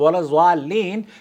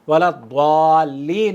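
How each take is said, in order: First: The word starts with a plain z sound. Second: The word starts with a heavy d-like sound. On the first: The speaker calls it wrong. "की बजाय" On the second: The speaker calls it right. "सही प्रोनाउंसिएशन"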